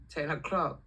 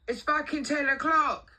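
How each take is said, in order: First: Said in the usual way. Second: High, loud, slow telling-off; outraged mock yell; indignant boss. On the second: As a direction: scold a late worker, imitating the boss. Acting out boss's telling-off.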